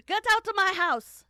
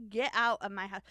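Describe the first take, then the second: First: High, very loud hammed-up yell; mock furious shout. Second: Loud, mock-indignant order; mock outburst. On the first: Voicing the cook ejecting the investigator, mock furious shout. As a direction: blow up into an over-the-top scream. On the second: Voicing the cook to the investigator, mock outburst. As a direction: throw him out, loudly but playfully. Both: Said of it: "that's not what she sounded like".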